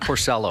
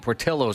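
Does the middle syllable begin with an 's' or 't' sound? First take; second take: s; t. First: The middle syllable begins with an 's' sound. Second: The middle syllable begins with a 't' sound. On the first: The speaker calls it wrong. "not Porcellos" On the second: The speaker calls it right. "Thank you, Portillo's"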